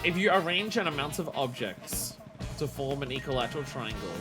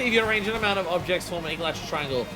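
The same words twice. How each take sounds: First: It is read at a slow pace. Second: It is read at a quick pace.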